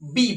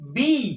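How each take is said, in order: First: The vowel is short and flat. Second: The vowel is drawn out with a tune. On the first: The speaker calls it wrong. "কিন্তু actually বি নয়" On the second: The speaker calls it right. "একটু সুর করে একটু টান করে বলতে হবে"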